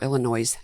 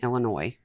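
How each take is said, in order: First: The final s is pronounced like noise. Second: The final s is silent.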